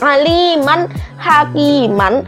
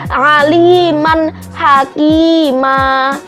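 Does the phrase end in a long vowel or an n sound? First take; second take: n sound; long vowel. First: The last word ends with an n sound. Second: The last word ends with a lengthened a vowel. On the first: This is how the word is written. "tulisannya itu kayak gitu" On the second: This is how it is read at the end of a sentence. "di akhir kalimat berarti dia dibacanya adalah aliman hakima"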